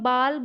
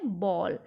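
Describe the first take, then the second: First: The vowel is an open 'aa' sound. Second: The vowel is a rounded 'aw' sound. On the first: The speaker calls it wrong. "या तो मैं बाल बोल पा रही हूँ इसको" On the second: The speaker calls it right. "लेकिन एक्चुअली में ये वर्ड क्या है"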